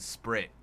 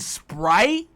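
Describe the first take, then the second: First: The word is pronounced in an odd, distorted way. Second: The word is pronounced in the normal way. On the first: The speaker calls it wrong. "purposely mispronounce shit" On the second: The speaker calls it right. "Don't you mean Sprite?"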